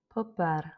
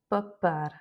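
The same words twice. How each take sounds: First: The P is light and soft. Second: The P is pressed out strongly. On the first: The speaker calls it right. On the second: The speaker calls it wrong.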